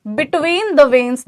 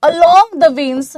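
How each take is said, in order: First: "between the veins" spoken slowly, rising on "the"; slow contrast stress. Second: Each word stretched out very slow and louder, "along the veins"; stressed slowly. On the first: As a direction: set "between the veins" against "along" by slowing down. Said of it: "और जब भी आपको कोई symptom". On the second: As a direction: lay weight on "along the veins", drawn out word by word. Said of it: "जब भी symptom आपको veins के side में मिलेगा". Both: Shown as a demonstration.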